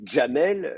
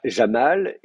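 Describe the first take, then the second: First: JAMEL opening on dj, as "Djamel"; Maghrebi dj. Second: JAMAL with a soft French j; soft Syrian j. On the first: Teacher comparing one name across dialects, dj in JAMEL. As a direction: put a d burst before the j in "Jamel". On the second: Teacher comparing one name across dialects, soft j in JAMAL. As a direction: say "Jamal" with a smooth j, no d. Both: Shown as a demonstration. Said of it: "prononcée de trois façons différentes".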